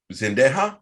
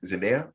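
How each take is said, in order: First: Zendaya said as zen-DAY-ha with the wrong stress; mispronounced name. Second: Zendaya said as zen-DAY-a with a questioning rise; unsure pronunciation. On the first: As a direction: Zendaya stressed unsure, ending in a breathy ha. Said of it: "I'm putting the emphasis on the wrong syllable". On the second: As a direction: Zendaya tried carefully, rising like a question. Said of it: "Am I saying it wrong?". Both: Real, not acted.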